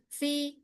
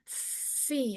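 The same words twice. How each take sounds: First: The f has weak, barely audible airflow. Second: The f has clearly audible spreading airflow. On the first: The speaker calls it wrong. "bukan fi" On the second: The speaker calls it right. "Tampakkan dulu ta'afufnya"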